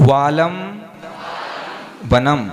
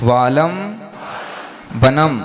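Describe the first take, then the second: The two takes are said the same way.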